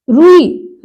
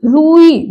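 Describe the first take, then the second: First: रुई with quick ru; short first vowel. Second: रुई with rū held; long first vowel. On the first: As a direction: keep ru unstretched in रुई. (रुई में छोटा उ) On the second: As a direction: draw out rūū in रुई. (रुई में लंबा ऊ) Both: Shown as a demonstration. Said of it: "बड़े ऊ की मात्रा".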